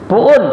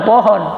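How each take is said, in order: First: It is said as a long 'puun', the h dropped. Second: It is said as two full syllables, 'pohon'. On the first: "Orang Betawi ngomong pohon" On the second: "bukan pohon"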